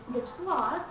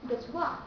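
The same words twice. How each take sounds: First: "Guess what" with the final T audibly released. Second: "Guess what" with the final T cut off; unreleased final T. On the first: Teacher shows what you needn't say, final T heard. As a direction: let the T pop at the end of "Guess what". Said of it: "You don't have to say". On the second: Teacher tells learners to just say it, T unreleased. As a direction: hold back the T ending "Guess what". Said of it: "Just say". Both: Shown as a demonstration.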